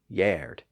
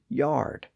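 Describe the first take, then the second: First: The vowel is an 'er' sound. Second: The vowel is an 'ar' sound. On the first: This is the older pronunciation. "previously yard" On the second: This is the modern pronunciation. "kept the newer R sound"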